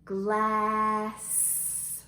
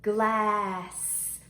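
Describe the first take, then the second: First: GLASS stretched very long with a held hissing S; slow-motion Glass on a level tone; stretched-out word. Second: GLASS said clearly with a lengthened vowel and S; slightly drawn-out Glass; word modelled. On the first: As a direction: stretch Glass so every sound is heard. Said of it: "Let's stretch it out". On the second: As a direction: lead a clear Glass for children to copy. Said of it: "Let's say that word together". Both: Shown as a demonstration.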